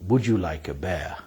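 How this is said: The last word sounds like 'bear'. "a lot of people don't actually say beer. They say something that sounds like this"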